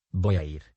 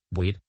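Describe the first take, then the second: First: Said in the usual way. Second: «voy a ir» squeezed into «boir»; «voy a ir» contracted. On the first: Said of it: "Unieron dos o más palabras". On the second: Shown as a demonstration. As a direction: drop the A in voy a ir. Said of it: "suprimiendo fonemas". («voy a ir» contraído en «boir»)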